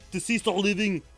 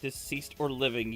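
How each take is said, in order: First: It is read in an imitated Austrian action-hero accent. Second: It is read in a plain, ordinary accent.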